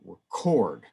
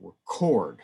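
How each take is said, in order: First: The stress is on the second syllable. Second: The same.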